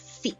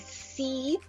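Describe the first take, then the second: First: The vowel is clipped short. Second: The vowel is held long. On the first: The speaker calls it right. "we shorten it and we have see" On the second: The speaker calls it wrong. "we don't say see with that long e"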